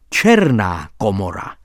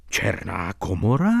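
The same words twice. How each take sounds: First: Said in the usual way. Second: Černá komora as a low rising question; Černá komora echoed with a rising, questioning end; surprised cry. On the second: A narrator's reading. Doctor and narrator echo the title in surprise. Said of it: "vykřikli jsme oba".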